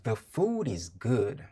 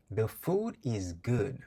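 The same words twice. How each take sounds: The two takes are said the same way.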